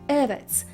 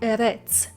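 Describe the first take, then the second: First: The stress is on the first syllable. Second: The stress is on the second syllable. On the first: The speaker calls it right. "the stress or the accent falls on the first syllable and not on the second. You say Eretz" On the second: The speaker calls it wrong. "not Eretz"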